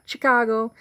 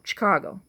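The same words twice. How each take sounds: First: "Chicago" overpronounced with a CH start; mock the wrong "Chicago", louder chi-KAH-go; mispronunciation. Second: "Chicago" as shi-KAH-go; unexaggerated local "Chicago", shi-KAH-go; correct pronunciation. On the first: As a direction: exaggerate the syllables of "Chicago". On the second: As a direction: say "Chicago" simply, short first syllable. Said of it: "Not Chicago". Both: Shown as a demonstration.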